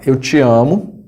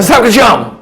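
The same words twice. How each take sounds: First: Slow, plain-voiced declaration of love; sincere love declaration. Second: Loud, high yelled "I love you"; aggressive love declaration. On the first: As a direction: say it slowly and tenderly. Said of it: "amor que é expresso com essa entonação". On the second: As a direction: yell the love words like an attack. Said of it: "Que desgrama é esse de amor". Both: Shown as a demonstration.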